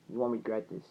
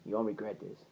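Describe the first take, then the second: First: Low, soft assurance; softly spoken vow; earnest promise. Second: Lower, much softer repeat of a vow; quiet, low assurance; hushed promise. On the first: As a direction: quietly promise it, retold. Quoted promise, repeated after pause. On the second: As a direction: let the promise drop low and soft. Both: Retold or imitated.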